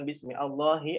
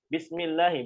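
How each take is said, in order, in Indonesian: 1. Bunyi 'a' yang terpisah memulai kata kedua. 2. Kata-katanya menyambung tanpa bunyi 'a'. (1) "bukan bismi Allahi" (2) "Bismillahi bukan"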